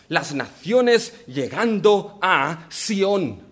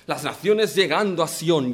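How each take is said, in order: First: Very slow, naciones drawn out and stressed; slow emphatic phrase. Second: Said in the usual way. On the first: Shown as a demonstration. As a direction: dwell on naciones llegando a Sión. Preacher stresses the key phrase. (muy lento, "naciones" alargado y acentuado)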